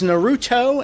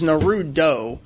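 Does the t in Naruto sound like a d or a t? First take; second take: t; d. First: The t keeps a clear t sound. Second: The t becomes a quick d-like tap. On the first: "There's two levels to this pronunciation" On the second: "The latter is like even more wrong than the former"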